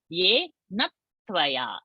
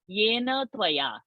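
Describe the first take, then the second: First: The t sound is held and doubled. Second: The t sound is short and single. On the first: The speaker calls it right. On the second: The speaker calls it wrong. "not yena tvaya"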